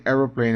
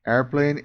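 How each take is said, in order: First: "aeroplane" with an o in the middle, falling at the end; British "aeroplane", closing the contrast; British form. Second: "Airplane" in two parts, AIR-plane, ending on a rise; American "Airplane", left open as in a list; American form. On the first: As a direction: say "aeroplane" the British way, AIR-o-plane. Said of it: "Inglês britânico". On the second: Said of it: "inglês americano". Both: Shown as a demonstration.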